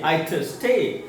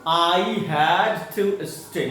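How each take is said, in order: First: It is said fast, with had reduced. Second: It is said at a normal, unhurried speed.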